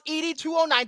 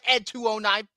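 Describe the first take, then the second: First: ED is spelled out as two separate letters. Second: ED is said as one word, Ed. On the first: The speaker calls it right. "It is pronounced E D two oh nine" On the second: The speaker calls it wrong. "I'm not gonna go by Ed two oh nine"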